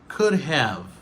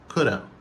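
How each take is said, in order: First: Both words are said fully and separately. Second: The words blend into one quick reduced word. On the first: "Ça, c'est la prononciation normale" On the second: "il dit coulda"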